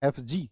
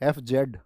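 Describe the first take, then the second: First: The letter Z is said as zee. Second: The letter Z is said as zed. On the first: The speaker calls it right. "क्या होती है" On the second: The speaker calls it wrong. "F जेड नहीं होती"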